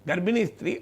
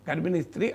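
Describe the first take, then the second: Both takes have the same delivery.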